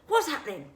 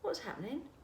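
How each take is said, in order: First: It is said in a harsh, accusing tone. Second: It is said in a calm, kind tone. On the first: The child is in trouble. The speaker calls it wrong. "your kids' downstairs brains hear this tone of voice" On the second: The child is not in trouble. The speaker calls it right. "try not to be judgmental"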